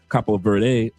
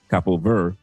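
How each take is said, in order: First: The final syllable of Verde is pronounced. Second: The final syllable of Verde is left silent.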